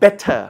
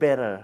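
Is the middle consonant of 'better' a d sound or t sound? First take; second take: t sound; d sound. First: The middle consonant is a clear t sound. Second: The middle consonant is a soft d sound. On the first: "ออกเสียงเป็นทอทหาร" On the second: "ออกเสียงเป็นดอเด็กก็ได้"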